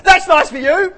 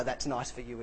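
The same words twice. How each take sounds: First: Much higher, louder chirpy brush-off; bright mock interruption, shrilled out; loud cheery cut-off. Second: Said in the usual way. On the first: Mimicking the churchgoer who cuts people off, loud and chirpy. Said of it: "And you'd go". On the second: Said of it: "What he meant by".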